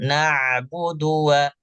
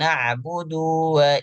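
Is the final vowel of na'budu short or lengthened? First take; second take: short; lengthened. First: The final vowel is short and moves straight on. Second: The final vowel is drawn out and lengthened. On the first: The speaker calls it right. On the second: The speaker calls it wrong.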